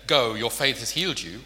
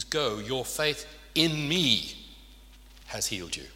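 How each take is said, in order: First: Said in the usual way. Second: Slow, with "in" and "me" leaned on hard; stress on in me. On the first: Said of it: "So when Jesus says here". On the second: Shown as a demonstration. Preacher explaining what Jesus meant to the congregation, slow stress on "in me". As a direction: drag out "in me" so the point lands. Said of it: "what he's saying is".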